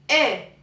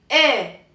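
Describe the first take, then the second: The two takes are said the same way.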